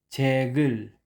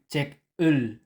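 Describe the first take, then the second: First: A g sound links smoothly into the next syllable. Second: A final k sound, then a separate ul. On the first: The speaker calls it right. "kundi chegul" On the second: The speaker calls it wrong. "hindi check ul"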